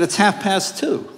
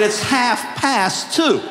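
First: Said in the usual way. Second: Half past two, said very slowly and word by word; slow, deliberate. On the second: Shown as a demonstration. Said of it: "I said".

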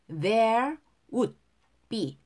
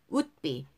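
First: "would" and "be" pronounced apart, with a pause; separated words. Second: "would be" run together, D unreleased; linked words. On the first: Teacher breaks the phrase up first, "would be" separated. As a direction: leave a gap between "would" and "be". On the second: Teacher shows the joined form, "would be" linked. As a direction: close "would" straight onto "be" as one unit. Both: Shown as a demonstration. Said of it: "would be를 would be".

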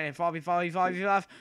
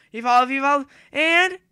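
First: Said in the usual way. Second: Evolve, evolve shouted much higher and louder; urgent excited chant; excited yell. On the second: Real, not acted. Urging character to evolve.

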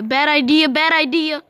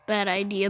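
First: Louder and higher, alarmed; panicked yelling. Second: Said in the usual way. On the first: Real, not acted. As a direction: yell it as the crash comes. Panics before hitting car.

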